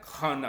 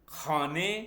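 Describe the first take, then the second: First: The word ends in a long 'aa' vowel. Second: The word ends in a short 'e' vowel. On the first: This is the Hindi-Urdu pronunciation. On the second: This is the Persian pronunciation.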